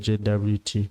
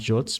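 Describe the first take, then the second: First: The term is said letter by letter. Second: The term is said as one short word. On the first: "I choose to call it a J W T" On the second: "People call them J O Ts"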